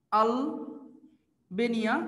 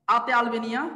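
First: "Albania" drawn out very slowly, split by a pause; slow dictation. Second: Said in the usual way. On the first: Shown as a demonstration. Teacher dictating "Albania" for students to write, slow dictation. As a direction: stretch "Albania" out part by part, as if for note-takers.

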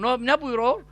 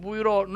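First: Said in the usual way. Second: Light imitation of an old Medina man's accent; Medina Arabic-Turkish accent. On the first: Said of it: "Öyle konuşuyor ya". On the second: Preacher mimics old Medina man's accent, lightly. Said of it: "Öyle konuşuyor ya Medineli Hacı Osman".

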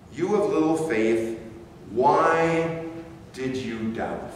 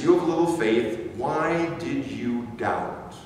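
First: "why" set apart by pauses; pauses around WHY. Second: Said in the usual way. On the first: Shown as a demonstration. Preacher repeats Jesus' question to ponder, pausing around "why". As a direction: hold a beat before and after "why".

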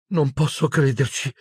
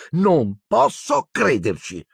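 First: High, very unsure murmur; uncertain Hermione. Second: Slow, high, emphatic disbelief; exasperated Hermione. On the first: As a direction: murmur it in high-voiced disbelief. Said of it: "mormorò Hermione con voce molto incerta". (mormorio acuto e incerto) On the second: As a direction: stretch each word in agitated incredulity. Hermione ends her agitated rant. (incredula, lenta e scandita, acuta) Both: A narrator's reading.

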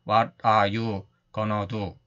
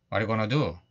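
First: What are you gonna do said very slowly, every word separated. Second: What are you gonna do run together with a falling end; linked native chunk. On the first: Teacher mocking choppy Korean-style English. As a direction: chop What are you gonna do into stiff single words. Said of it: "이렇게 딱딱". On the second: Teacher imitating drama native speakers for students. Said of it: "최대한 비슷하게 흉내낸". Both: Shown as a demonstration.

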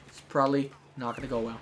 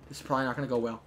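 First: Pauses around "probably". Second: Said in the usual way. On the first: Real, not acted. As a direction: space it out, dwelling on "probably". Repeats it slower, with breaks.

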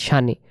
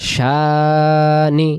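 First: শানি with a short clipped first vowel; one-letter reading of শানি; short shani. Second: শানি with the first vowel drawn out; two-letter reading of শানি; long shaa. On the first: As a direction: say শানি quickly, no stretch on the a. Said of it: "অক্ষর আমরা শানি বলি তখন একটি অক্ষর হবে". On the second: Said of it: "আর দুই অক্ষরে যদি বলতে যাই". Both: Shown as a demonstration.

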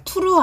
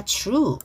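First: "true" with an added vowel, tu-ru; wrong, Koreanized true. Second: "true" as one syllable, tr blended; correct English true. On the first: Teacher warning students off "true" said as tu-ru. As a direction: split "true" into two syllables, tu-ru. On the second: Teacher correcting students, "true" in one blended syllable. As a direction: glide straight from T into R in "true". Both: Shown as a demonstration. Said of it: "true 아니라 true".

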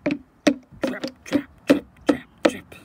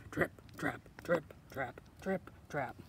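First: Loud, heavy trip-trap; booming, percussive footsteps; big goat's stomps. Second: Low, crisp trip-trap; measured, lower-pitched footsteps; middle goat's hoof steps. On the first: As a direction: pound each word out like big hooves. Biggest goat stomps across bridge. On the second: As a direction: tap out each word like hooves. Middle goat crosses the bridge. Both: Acted.

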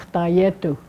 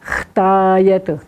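First: Said in the usual way. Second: "Chtayetu" stretched, with a long throat-made "Ch"; teacher's drawn-out "Chtayetu", fricative from the throat; guttural opening sound. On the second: Shown as a demonstration. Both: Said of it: "Where's that sound coming from".

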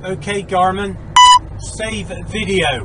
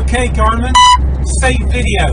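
First: Slow, careful words for the device; slow clear command. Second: Loud, clipped order to the dashcam; loud voice command. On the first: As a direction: spell it out slowly for the dashcam. Voice command to dashcam. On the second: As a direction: bark the command over road noise. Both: Real, not acted.

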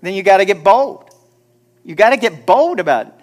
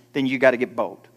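First: Louder and higher, ringing out bold; a preacher hammering home his point; loud exhortation. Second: Said in the usual way. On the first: Shown as a demonstration. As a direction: call it out to the whole room. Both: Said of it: "I said".

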